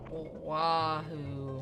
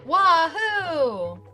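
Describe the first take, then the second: First: It is said in a sad tone. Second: It is said in an excited tone.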